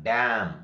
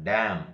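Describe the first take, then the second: The two takes are said the same way.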